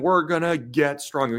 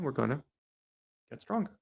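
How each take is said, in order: First: It is said loudly with projected energy. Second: It is said quietly with flat energy. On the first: The speaker calls it right. "you want to raise your voice a little bit" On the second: The speaker calls it wrong. "He's like"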